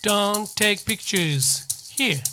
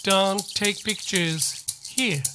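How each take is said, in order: No difference in how they are said.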